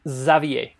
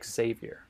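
First: The name is pronounced the French way. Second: The name is pronounced the American way.

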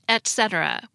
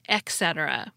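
First: The first syllable ends in a T sound. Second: The first syllable ends in an X sound. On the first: The speaker calls it right. "with a T sound" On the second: The speaker calls it wrong. "not etc. with an X sound"

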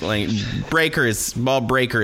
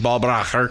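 First: The name is said with English pronunciation. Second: The name is said with German pronunciation. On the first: This is the adapted form of the name. "is how we Anglicanized it" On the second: This is the original form of the name. "is how you pronounce it in the old"

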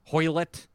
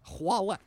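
First: The first syllable sounds like 'hoy'. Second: The first syllable sounds like 'hwa'. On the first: The speaker calls it wrong. "that's probably not the proper way" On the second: The speaker calls it right. "It should be Hwalet. Hwa. Like croissant"

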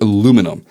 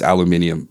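First: It is said the American way. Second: It is said the English way.

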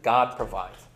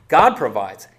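First: The stress is on the word 'provides'. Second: The stress is on the word 'God'. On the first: God keeps his promise to supply what is needed. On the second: It is God, not us, who is the giver.

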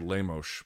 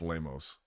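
First: It is said with a Rio de Janeiro accent. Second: It is said with a non-Rio Brazilian accent. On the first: "it's the Rio de Janeiro accent where they say Lemos" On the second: "if you're in other parts of Brazil, it's just Lemos"

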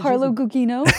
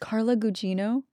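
First: The second g has the Filipino-style sound. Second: The second g has the standard English sound. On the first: The speaker calls it wrong. "how all Filipinos pronounce her last name" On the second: The speaker calls it right. "It's Carla Gugino"

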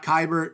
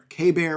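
First: It begins with 'kai' and ends like 'bert'. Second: It begins with 'kay' and ends like 'bear'. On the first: The speaker calls it wrong. "Not Kybert" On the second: The speaker calls it right. "Like the letter K, and then like the animal bear"

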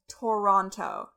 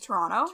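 First: Every t is clearly sounded, three full syllables. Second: The second t is dropped, like Tronno. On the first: The speaker calls it wrong. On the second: The speaker calls it right.

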